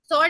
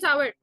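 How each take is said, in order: First: The vowel is a single or sound. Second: The vowel is a two-part ow-er sound. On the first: The speaker calls it wrong. "सॉर नहीं बोलते" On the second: The speaker calls it right. "Sweet and सावर"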